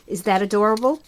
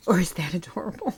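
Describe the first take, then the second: First: Said in the usual way. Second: Quieter, lower, cooed to herself; soft cooing repeat. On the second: Shown as a demonstration. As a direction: coo it softly as if to a baby. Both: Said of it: "repeats the question twice".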